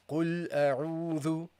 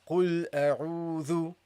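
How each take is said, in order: The two takes are said the same way.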